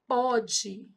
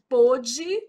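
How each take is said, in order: First: The stressed o vowel is open. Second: The stressed o vowel is closed. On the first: It is the present tense. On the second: It is the past tense.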